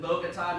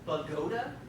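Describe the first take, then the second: First: The name is pronounced as it is spelled. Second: The name is pronounced the local way. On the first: The speaker calls it wrong. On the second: The speaker calls it right.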